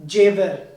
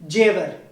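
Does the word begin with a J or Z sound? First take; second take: J; J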